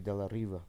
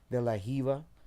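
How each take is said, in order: First: The R is said with a São Paulo sound. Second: The R is said with a French-like throaty sound. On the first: "and then in São Paulo" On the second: "So like"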